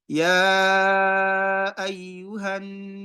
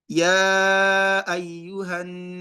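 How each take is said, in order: First: The opening vowel is held for five beats. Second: The opening vowel is held for four beats. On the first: "Five harakat with my pace" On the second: "That's four harakat with my own recitation"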